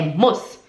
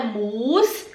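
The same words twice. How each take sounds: First: "muss" said low with a short u; short quick vowel. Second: "muss" stretched with a long u; wrong long vowel. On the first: Teacher shows the quick version, short-vowel "muss". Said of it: "é rápido". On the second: Teacher shows what is not quick, long-vowel "muss". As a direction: draw out the u of "muss" slowly. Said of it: "é rápido. Não é muss". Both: Shown as a demonstration.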